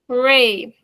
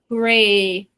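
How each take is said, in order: First: It is said excitedly, like an exclamation. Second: It is said flatly, with a straight face.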